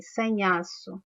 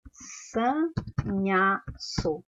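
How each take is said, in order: First: Said in the usual way. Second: "sanhaço" very slowly, san, nha, ço, long pauses between; sílaba por sílaba. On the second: Shown as a demonstration. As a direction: sound out "sanhaço" one syllable at a time. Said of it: "Quantas vezes eu abri a boca". ("sanhaço" bem devagar, separando san-nha-ço)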